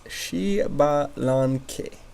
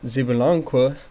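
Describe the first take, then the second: First: The name begins with an sh sound. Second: The name begins with a z sound. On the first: The speaker calls it right. "X in front of the name gives it a sh" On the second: The speaker calls it wrong. "what was"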